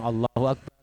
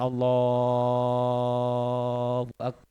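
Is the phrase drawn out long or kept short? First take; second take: short; long. First: The phrase is said short, not drawn out. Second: The phrase is drawn out long.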